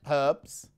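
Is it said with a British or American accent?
British. It is said in a British accent.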